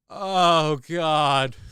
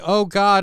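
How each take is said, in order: First: It is said with strong emotion. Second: It is said flatly, without emotion.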